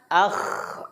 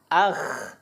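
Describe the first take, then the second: Both takes have the same delivery.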